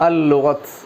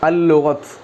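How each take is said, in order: Both takes have the same delivery.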